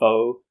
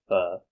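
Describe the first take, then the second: First: Pho is said the common foreign way. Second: Pho is said the Vietnamese way. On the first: The speaker calls it wrong. "a lot of people pronounce as pho" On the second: The speaker calls it right. "in Vietnam it should be pronounced as pho"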